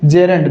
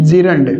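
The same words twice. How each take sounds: First: "gerund" said as JEH-rund, e first; correct gerund pronunciation. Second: "gerund" said as JEE-rund, long ee first; mispronounced gerund. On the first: Teacher contrasting right with wrong, gerund said as JEH-rund. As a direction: open "gerund" with JEH, not JEE. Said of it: "इसका correct pronunciation क्या होता है". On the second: Teacher showing what to avoid, gerund mispronounced as JEE-rund. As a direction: open "gerund" with JEE instead of JEH. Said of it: "न कि gerund". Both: Shown as a demonstration.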